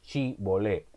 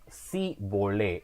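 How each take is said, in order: First: The word begins with an sh sound. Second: The word begins with a plain s sound. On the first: The speaker is a local of that region. The speaker calls it right. "en vez de decir chi volé" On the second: The speaker is not a local of that region. The speaker calls it wrong. "los de Efraín no podían pronunciar la S H, entonces ellos decían si volé"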